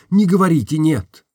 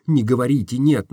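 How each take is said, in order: First: Не говорите «нет» repeated higher and louder, stress on не; insistent repeat. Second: Said in the usual way. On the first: Acted. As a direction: press the plea with weight on не.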